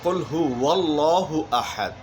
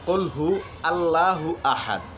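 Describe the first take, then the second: First: A w sound links the previous word into Allahu. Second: Allahu starts on its own, without a w sound. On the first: The speaker calls it right. "উচ্চারণের সঠিকটি হচ্ছে" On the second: The speaker calls it wrong. "ভুলটি হচ্ছে"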